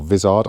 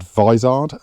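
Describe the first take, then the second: First: Vizard said with a short i, VIZ-ard; alternative pronunciation. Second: Vizard said with a long first vowel, VY-zard; alternative pronunciation. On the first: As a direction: say Vizard as VIZ-ard, first syllable like "whiz". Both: Shown as a demonstration. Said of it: "I think he pronounces it".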